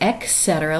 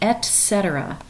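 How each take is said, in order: First: The first syllable is said as 'ek'. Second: The first syllable is said as 'et'. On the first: The speaker calls it wrong. "like it's E K" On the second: The speaker calls it right. "really it's E T"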